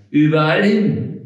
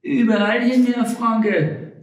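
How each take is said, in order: First: Louder, indignant echo of her words; irritated repeat. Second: Much higher, sing-song woman's voice; Frau Rosalie's reply. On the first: Frank repeats Rosalie's answer back to her, irritated. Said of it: "fragte der Hobble Frank gereizt". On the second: Frau Rosalie answers Frank's complaint, high and breezy. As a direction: toss it off lightly in a high voice. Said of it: "antwortete Frau Rosalie". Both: Acted.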